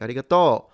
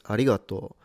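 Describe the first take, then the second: First: It uses the Kansai-style pitch accent pattern. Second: It uses the Tokyo-style pitch accent pattern. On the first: "it sounded more like arigato" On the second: "in Tokyo, it's arigato"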